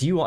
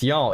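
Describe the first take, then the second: First: Said in the usual way. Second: "y'all" run together as one syllable; "y'all" with the "you" swallowed into "all"; contracted y'all. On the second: Shown as a demonstration. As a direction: squeeze it into "y'all". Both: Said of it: "the apostrophe is you all".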